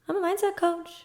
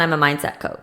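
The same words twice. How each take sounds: First: The voice rises at the end. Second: The voice falls at the end. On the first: The speaker sounds unsure of the claim. The speaker calls it wrong. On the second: The speaker sounds confident in the claim. The speaker calls it right.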